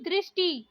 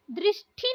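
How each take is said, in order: First: दृष्टि with plain "ti"; unaspirated retroflex t in दृष्टि; correct pronunciation. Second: दृष्टि with aspirated "thi"; wrong pronunciation. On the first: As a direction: say दृष्टि as "drishti". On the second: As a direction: say दृष्टि as "drishthi". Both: Shown as a demonstration. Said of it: "दृष्टि नहीं".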